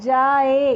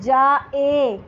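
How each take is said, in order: First: The middle catch is blended into the vowel. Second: The middle catch is sounded separately. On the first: This is the usual Urdu way of saying it. "तो क्या मिला के पढ़ते हैं हम उसको" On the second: This is the Arabic way of saying it. "अगर हम अरबी एक्सेंट में पढ़ेंगे"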